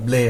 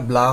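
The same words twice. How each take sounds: First: "ব্লে" said with an ay vowel; "ব্লে" ending on an e sound, not aa; correct pronunciation. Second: "ব্লা" said with an open aa vowel; "ব্লা" ending on a wide aa sound; wrong pronunciation. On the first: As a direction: say "ব্লে" as blay, with A sounded like its letter name. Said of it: "এটা ব্লে হবে". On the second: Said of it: "এটা ব্লা হবে না". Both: Shown as a demonstration.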